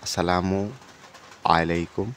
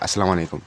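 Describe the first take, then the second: First: The greeting is said slowly, with every sound full. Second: The greeting is said fast, with sounds run together. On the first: "এর জায়গায়" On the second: "তাড়াতাড়ি বলতে গেলে এমন শোনা যায়"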